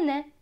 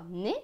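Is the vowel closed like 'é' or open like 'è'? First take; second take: open; closed. First: The vowel is open, like 'è'. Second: The vowel is closed, like 'é'. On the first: Other people say it this way. "se prononce est pour d'autres" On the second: Some people say it this way. "se prononce et pour certains"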